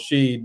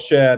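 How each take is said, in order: First: The vowel is long, as in 'sheed'. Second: The vowel is short, as in 'shed'. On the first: The speaker calls it wrong. "normally like lead is L E A D and Sheed is S H E A D" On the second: The speaker calls it right. "but it's Shed"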